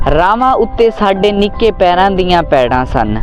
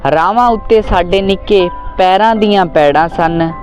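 The two takes are said the same way.

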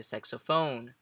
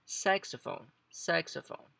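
First: Saxophone wrongly stressed on the last syllable; stress on final PHONE. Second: Saxophone with a higher, punched SAX; stress on first syllable. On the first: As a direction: lean on PHONE at the end of saxophone. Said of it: "Em vez de saxophone". (saxophone com a tônica errada no final, no phone) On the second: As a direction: hit SAX high, let ophone fall away. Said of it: "a entonação entra no começo". (saxophone com a tônica no começo, no SAX) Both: Shown as a demonstration.

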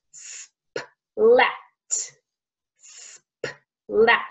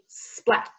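First: "splat" broken into s, p, lat with pauses; slow phonics breakdown of "splat"; sounds separated. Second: "splat" said as one quick joined word; "splat" with no gaps between sounds; blended sounds. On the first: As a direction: hold the s, pop the p, then finish "splat". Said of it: "three sounds squished together". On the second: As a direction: squish s, p and l together in "splat". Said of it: "if we speed it up". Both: Shown as a demonstration.

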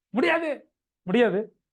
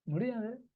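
First: Loud, emphatic mock-aggressive no; acted vehement refusal, pitched up. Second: Soft, slightly raised-pitch no; softened, matter-of-fact refusal; unaggressive refusal. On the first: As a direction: slam the refusal down forcefully. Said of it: "ரொம்ப ஆக்ரோஷமா சொல்றீங்க". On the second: Acted. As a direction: say no gently, without any aggression. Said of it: "என்ன ஆக்ரோஷமா சொல்றேன்?".

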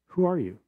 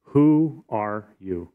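First: Higher, softer, quick who are you; pitched-up soft repeat of the question; higher, softer echo. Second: Slow, drawn-out question; slow, challenging who are you. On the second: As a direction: stretch out each word as if demanding an answer. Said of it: "they said to Jesus". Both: Shown as a demonstration.

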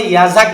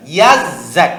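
First: "ইয়াজাক" run together with a single z; children's wrong reading. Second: "ইয়াজ্জাক" louder, split as yaz-zak; corrected doubled sound. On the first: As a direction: skim through "ইয়াজাক" without doubling the z. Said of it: "অনেকে বলে ইয়াজাক বলে ফেলে". ("ইয়াজাক" তাড়াতাড়ি এক জ দিয়ে ভুল পড়া) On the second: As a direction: hold the z in "ইয়াজ্জাক", then hit zak. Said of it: "ইয়াজাক না". ("ইয়াজ্জাক" জোরে, ইয়াজ-জাক ভেঙে পড়া) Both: Shown as a demonstration.

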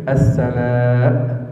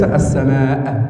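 First: السماء slow, ending on a clear glottal stop; full hamza. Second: السماء ending with no hamza, slowly; dropped hamza. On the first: Teacher showing the correct stop on the hamza. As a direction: land firmly on the hamza of السماء. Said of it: "لابد من تحقيق الهمزة". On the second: Teacher showing the wrong stop, hamza dropped. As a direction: let السماء fade out with no glottal stop. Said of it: "وليس". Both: Shown as a demonstration.

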